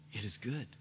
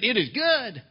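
First: It is good said softly and low, gently settled; peaceful. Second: It is good? shouted high and loud in disbelief; the king can't believe what he heard; king repeats his friend's words in disbelief, loud and high; incredulous. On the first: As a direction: let it is good fall quiet like a sigh of trust. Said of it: "A peaceful attitude says". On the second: King stunned by friend's reply. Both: Acted.

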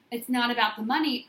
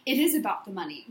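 First: Said in the usual way. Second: Is pressed firmly, money dropping; insist, hitting is; stress on is. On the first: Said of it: "You make statements like". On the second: Shown as a demonstration. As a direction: lean on the word is. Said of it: "I make statements like".

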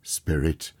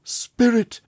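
First: Said in the usual way. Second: Higher, louder desperate call; cried out. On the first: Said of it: "said Scrooge". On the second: A narrator's reading. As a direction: cry out to the spirit in anguish. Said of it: "he cried".

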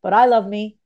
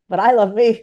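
First: Said in the usual way. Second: Louder affirmation. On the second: Shown as a demonstration. Repeating the affirmation for listeners, louder with conviction. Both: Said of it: "Say that out loud".

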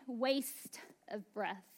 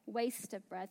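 First: Slow, soft and drawn out; hushed slow verdict; slow drawn-out readout. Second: Said in the usual way. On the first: Shown as a demonstration. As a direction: let each word hang like a gauge reading. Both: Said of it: "maybe it would read".

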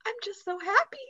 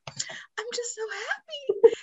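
First: Put-on high little-girl voice, overjoyed and teary; imitating little daughter. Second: Much higher, whispered and slow, as if crying with joy; the little girl sobbing happily, in a breathy whisper; imitating tearful daughter. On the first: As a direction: play the youngest daughter, much higher and tearfully happy. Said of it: "she looks at the camera and she goes". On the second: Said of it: "She was like".

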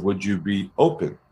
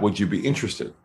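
First: Calm, lightly softened ask; open question. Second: Said in the usual way. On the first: Shown as a demonstration. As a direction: offer it gently, as an open question. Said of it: "if you heard what I said".

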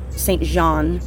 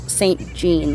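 First: "Jean" in "Saint Jean" said like "zhahn"; French pronunciation. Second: "Jean" in "Saint Jean" said like English "jeen"; as spelled. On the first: Host guessing from the French families, "Jean" as "zhahn". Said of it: "I think it's primarily French". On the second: Host explaining the spelling, "Jean" read as "jeen". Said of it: "it's spelled Saint Jean". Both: Shown as a demonstration.

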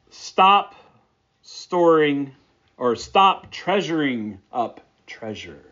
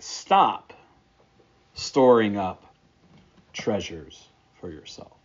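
First: Emphatic Stop, then let the rest fall; stress on Stop. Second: Said in the usual way. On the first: Shown as a demonstration. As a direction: hit the first Stop hard to bring out the wordplay. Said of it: "To bring it out into English would be something like this". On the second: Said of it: "To bring it out into English".

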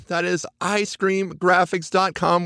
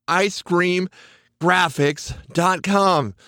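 First: Said in the usual way. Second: Slow, spelling it out word by word; careful slow web address; slow and clear. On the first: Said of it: "and then the word scream". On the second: Shown as a demonstration. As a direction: say graphics dot com slowly so it sticks. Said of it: "and then the word scream, then graphics".

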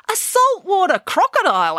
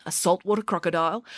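First: High, astonished echo; a child interrupting the story, amazed; incredulous question. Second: Said in the usual way. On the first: A narrator's reading. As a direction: query it in loud disbelief. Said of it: "asked Michael".

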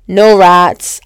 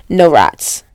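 First: No rats said again, louder, leaning hard on No; emphatic repeat. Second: Said in the usual way. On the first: Shown as a demonstration. Telling her viewers about the clean McDonald's, with louder emphasis. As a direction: hammer home No with a louder second take.

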